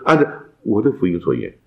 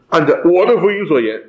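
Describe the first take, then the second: First: It is said in a modest, humble tone. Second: It is said in a bold, proud tone. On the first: The speaker admits he might be wrong. The speaker calls it right. "但他谦卑地说" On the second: The speaker claims sole authority. The speaker calls it wrong. "哇，保罗好了不起啊"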